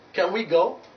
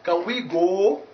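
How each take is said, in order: First: The vowel in go glides toward u. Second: The vowel in go stays a pure vowel. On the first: The speaker calls it right. "So that's why you say go" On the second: The speaker calls it wrong. "Not can we go?"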